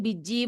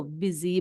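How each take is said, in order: First: बिजी said as "bi-ji" with a j sound; wrong pronunciation. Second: बिजी said as "bi-zi" with a z sound; correct pronunciation. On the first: Teacher showing students' mistake: बिजी with a j sound. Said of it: "बिजी नहीं बोलना इसको". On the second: Teacher correcting her class: बिजी with a z sound. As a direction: say बिजी with a clear z, the right way. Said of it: "क्या बोलते हैं इसको?". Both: Shown as a demonstration.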